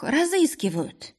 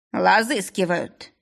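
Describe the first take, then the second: First: «разыскивают» high, with a clear rolled р; correct Russian р. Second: «Лазыскивают» slowly, each syllable hammered, л for р; clipped. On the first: Polina decodes the owner's word, «разыскивают» with р. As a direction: say «разыскивают» properly, realising. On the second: Owner spells it out for Polina, «Лазыскивают» with л. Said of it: "отчеканил хозяин". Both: A narrator's reading.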